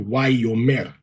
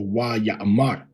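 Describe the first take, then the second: First: The word is said as wayomer. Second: The word is said as wayamar. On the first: This is the pronunciation the records and grammar support. "we see Wayomer" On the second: This is the commonly taught pronunciation. "as opposed to Wayamar"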